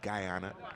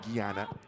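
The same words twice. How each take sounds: First: The name is said with an English pronunciation. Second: The name is said with a French pronunciation. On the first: "But in English, G Y is Guy, so it might be Guyana" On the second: "Guyana in French. My uncle is named Guy, so I might say Guyana"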